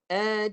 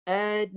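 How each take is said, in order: First: The n carries a held nasal hum. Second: The n carries a held nasal hum.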